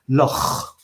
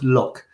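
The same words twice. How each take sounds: First: It is said in a Scottish accent. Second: It is said in an English accent. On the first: The speaker calls it right. "the Scottish for lake is Loch" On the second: The speaker calls it wrong. "not Loch"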